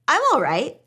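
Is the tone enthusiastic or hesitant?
enthusiastic. The voice sounds upbeat and high in energy. The speaker seems fine. "I might say it like that in an enthusiastic way"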